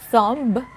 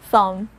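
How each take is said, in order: First: A b sound is heard at the end. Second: No b sound is heard at the end. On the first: The speaker calls it wrong. "So it's not thumb" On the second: The speaker calls it right. "It's thumb"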